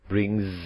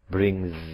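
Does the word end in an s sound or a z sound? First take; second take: z sound; z sound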